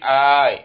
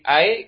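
First: The first vowel is long. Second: The first vowel is short. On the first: "Kalau mamdud dah berarti" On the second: "maksurah berarti"

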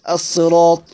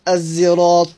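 First: The word is said with an emphatic s sound. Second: The word is said with a z-like blended sound. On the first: "بالصاد" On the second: "والإشمام"

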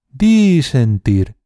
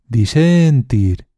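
First: The stress is on the first syllable. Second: The stress is on the middle syllable. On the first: "alargando cada sílaba" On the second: "alargando cada sílaba"

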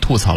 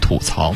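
First: The first syllable has a falling fourth tone. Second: The first syllable has a dipping third tone. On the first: The speaker calls it wrong. "我读的是吐槽，老师说错了" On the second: The speaker calls it right. "应该念吐槽 … 是吐槽三声"

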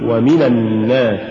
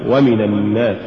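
The two takes are said the same way.

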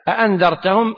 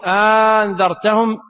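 First: Both glottal stops are fully pronounced. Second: The second glottal stop becomes a long vowel. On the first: "بتحقيق الهمزتين" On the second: "وإبدال الثانية ألفا"

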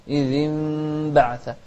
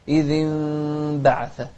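Both takes have the same delivery.

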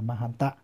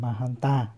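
First: The final vowel is short. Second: The final vowel is long. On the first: The word is singular. "số ít là Mahanta" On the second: The word is plural. "có trường âm Mahanta là số nhiều"

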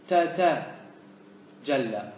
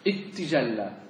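First: The two t sounds are said separately. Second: The two t sounds merge into one doubled t. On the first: "تتجلى على فك" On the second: "أراد التخفيف فيقول اتجلى"

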